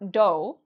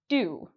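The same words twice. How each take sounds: First: The vowel sounds like 'oh'. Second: The vowel sounds like 'oo'. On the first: The speaker calls it wrong. "It's not do, even though there's an O here" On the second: The speaker calls it right. "It rhymes with you"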